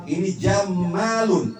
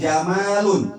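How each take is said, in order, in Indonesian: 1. Konsonan di tengah digandakan dan dibaca panjang. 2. Konsonan di tengah tunggal dan dibaca pendek. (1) "cantik banget" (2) "itu cantik"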